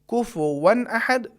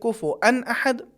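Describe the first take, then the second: First: A w sound comes before the final -an. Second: A glottal stop comes before the final -an. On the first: "ये भी तलफ़ुज़ सही है" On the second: "ये भी तलफ़ुज़ सही है"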